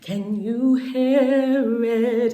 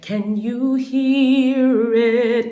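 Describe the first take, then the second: First: The vowel in hear is open, like hair. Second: The vowel in hear is a tight ee sound. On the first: It keeps the sound soft and smooth. "It's more of a hair, which keeps it soft" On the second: It makes the sound's edges harsh. "Instead of"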